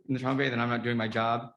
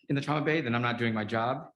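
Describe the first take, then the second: No difference in how they are said.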